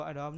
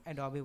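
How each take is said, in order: First: "Adobe" said as two syllables, a-DOB; "Adobe" ending on the b sound; wrong pronunciation. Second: "Adobe" said as three syllables, a-do-bee; "Adobe" with the final e voiced as ee; correct pronunciation. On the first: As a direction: drop the final ee from "Adobe". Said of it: "Adobe बोला जाता है". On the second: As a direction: end "Adobe" on a clear ee. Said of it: "इसको Adobe नहीं". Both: Shown as a demonstration.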